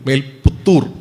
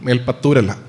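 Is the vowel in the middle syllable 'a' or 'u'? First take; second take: u; a. First: The middle syllable has the vowel u. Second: The middle syllable has the vowel a. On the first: The speaker calls it right. "മേൽപുത്തൂർ ആണ്" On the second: The speaker calls it wrong.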